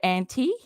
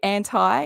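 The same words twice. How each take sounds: First: The word is said a non-American way. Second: The word is said the American way. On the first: "instead of anti" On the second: "Do Americans say anti"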